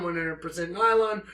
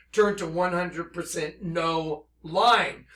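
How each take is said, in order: First: The word nylon said as normal nai-lon; nylon read plainly. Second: No line said slowly as two words, no and line; nylon heard as no line. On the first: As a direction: nylon as usual before the twist. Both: Shown as a demonstration.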